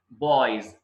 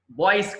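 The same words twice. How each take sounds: First: Put-on బాయ్స్ as "boyz", drawn out, pitched lower; voiced z ending. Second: Put-on బాయ్స్ as "boyss"; wrong hissed ending. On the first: Teacher modelling for learners, బాయ్స్ as "boyz". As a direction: end బాయ్స్ on a buzzed z. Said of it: "జ పలకాలి". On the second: Teacher showing learners the mistake, బాయ్స్ as "boyss". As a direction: end బాయ్స్ short on a hissed s. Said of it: "కాదు". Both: Shown as a demonstration.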